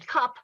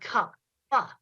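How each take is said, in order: First: The word ends without an added vowel sound. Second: The final p is exaggerated with an added vowel. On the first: "she switched back and forth between saying cup" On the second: "Stretch out and enunciate the um, the consonants"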